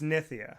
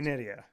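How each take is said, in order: First: The middle consonant sounds like a 'th'. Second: The middle consonant sounds like a 'd'. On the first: The speaker calls it right. "but it's Nithya" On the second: The speaker calls it wrong. "So most people say Nydia"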